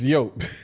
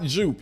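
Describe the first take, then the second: First: The word begins with a Y sound. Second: The word begins with a J sound. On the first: The speaker calls it right. "It's yope" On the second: The speaker calls it wrong. "It's not jupe"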